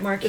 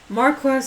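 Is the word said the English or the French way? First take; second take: French; English. First: It is said with a French pronunciation. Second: It is said with an English pronunciation. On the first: "the actual French word" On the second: "the way the English people say it"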